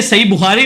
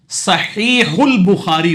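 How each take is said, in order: First: صحیح بخاری run quickly as two words, sahi bukhari; everyday wrong form. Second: صحیح البخاری slowly as sa-HEE-hul bu-KHAA-ri; correct Arabic form. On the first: Teacher quoting the form that is not correct, everyday pronunciation. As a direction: say صحیح بخاری casually, without the linking hul. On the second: Teacher correcting the book's title, careful Arabic pronunciation. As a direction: draw out صحیح البخاری with breathy Arabic h and linking ul. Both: Shown as a demonstration. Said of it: "یہ صحیح بخاری نہیں ہوگا".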